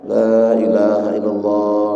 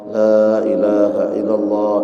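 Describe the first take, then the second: Both takes have the same delivery.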